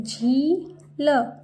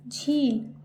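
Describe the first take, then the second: First: झील slowly as झी, pause, ल; split syllables. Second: Said in the usual way. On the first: Shown as a demonstration. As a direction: sound out झील with long ee. (झील को तोड़कर, झी-ल) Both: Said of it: "जैसे मैं बोल रही हूँ".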